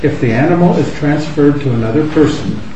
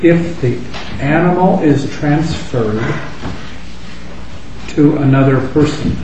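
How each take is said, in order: First: The sentence is read at a fast pace. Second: The sentence is read at a slow pace. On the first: "I'll just read it fast once" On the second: "and then slower again"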